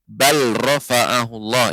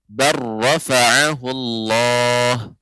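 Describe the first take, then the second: First: The L is pronounced before the R. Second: The L is absorbed into a doubled R. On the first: The speaker calls it wrong. "tidak bal rafa'ahullah. Ini ya kurang tepat" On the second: The speaker calls it right. "huruf lam hilang karena dilebur ke dalam huruf ra"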